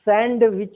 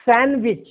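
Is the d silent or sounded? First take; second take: sounded; sounded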